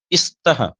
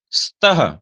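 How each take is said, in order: First: स्तः said as 'istaha', with an 'i' in front; wrong added vowel. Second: स्तः starting straight on the hiss of 's', no vowel before it; pure initial s. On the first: Teacher showing a common pronunciation mistake, wrong added vowel. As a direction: put a short 'i' before the s of स्तः. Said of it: "जो गलती होती है उच्चारण में". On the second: Teacher demonstrating the correct pronunciation, pure initial s. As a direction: go directly into 'st' in स्तः. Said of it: "सीधे सीधे सकार का उच्चारण". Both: Shown as a demonstration.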